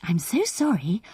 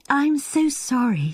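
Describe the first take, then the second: First: A touch of softness; lightly voiced, small and soft. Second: Much higher, amused apology; apologising through laughter. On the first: Anne greets Reggie with an apology, small soft voice. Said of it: "in her small, soft voice". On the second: Anne apologises to Reggie for laughing, higher and amused. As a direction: sound on the edge of laughing. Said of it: "to be laughing like this". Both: A narrator's reading.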